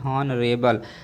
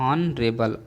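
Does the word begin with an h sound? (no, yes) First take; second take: yes; no. First: The word begins with an h sound. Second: The word begins with a vowel sound. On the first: The speaker calls it wrong. "अगर आपने इसको हॉनरेबल पढ़ा ... गलत है" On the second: The speaker calls it right. "ऑनरेबल में एच silent है"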